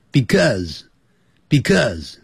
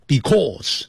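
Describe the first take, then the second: First: Because said slowly and lightly; correct because. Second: Because said with a hard, spelled-out start; wrong because. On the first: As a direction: say because slowly, unstressed first syllable. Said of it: "这样念就可以了". (正确读法：because 慢慢念，前面轻读) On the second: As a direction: say because the stiff way. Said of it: "不要念成because". (错误读法：because 念得生硬) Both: Shown as a demonstration.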